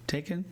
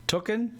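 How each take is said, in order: First: Taken said with ay vowel; corrected pronunciation. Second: Tooken said with oo vowel; playful mispronunciation. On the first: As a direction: say Taken, ay like take. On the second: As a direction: say Tooken, oo like book. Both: Shown as a demonstration.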